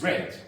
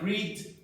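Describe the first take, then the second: First: It has the past-tense pronunciation of read. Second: It has the present-tense pronunciation of read. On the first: The action happened in the past. "In the past, it is read" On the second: The action happens now or habitually. "some verbs like read"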